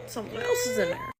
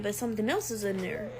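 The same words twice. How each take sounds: First: High mock-ominous singsong voice; high-pitched repeat. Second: Said in the usual way. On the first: Storyteller echoing the missed-period warning, in a high put-on voice.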